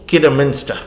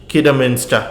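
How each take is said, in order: No difference in how they are said.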